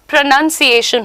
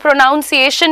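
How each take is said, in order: First: The word is pronounced in a careful, standard way. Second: The word is pronounced in a careless, nonstandard way. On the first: The speaker calls it right. "प्रोनाउंसिएशन होता है" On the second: The speaker calls it wrong. "वो प्रोनाउंसिएशन नहीं होता है"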